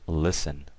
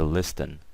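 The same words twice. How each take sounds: First: The T in the middle is silent. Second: The T in the middle is pronounced. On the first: The speaker calls it right. "the T is silent" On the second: The speaker calls it wrong. "we never say listen"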